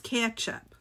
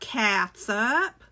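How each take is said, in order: First: The word begins with a 'ketch' sound. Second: The word begins with a 'cat' sound. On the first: The speaker calls it right. "It's ketchup. That's what I say" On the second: The speaker calls it wrong. "It's not catsup"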